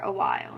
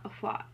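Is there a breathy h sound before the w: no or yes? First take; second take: no; yes. First: The w has no breathy h sound. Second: The w starts with a breathy h sound. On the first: The speaker calls it wrong. "I say" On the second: The speaker calls it right.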